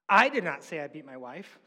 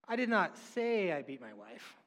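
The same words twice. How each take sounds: First: The stress falls on the first word I. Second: The stress falls on the word say. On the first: Someone else said it. "Someone else said it. I didn't say it" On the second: The speaker may have implied it without saying it. "I did not say that. Well, maybe I"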